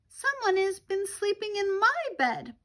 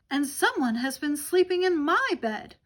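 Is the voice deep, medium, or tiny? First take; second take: tiny; medium. First: It is squeaked in a tiny little voice. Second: It is exclaimed in a medium-sized voice.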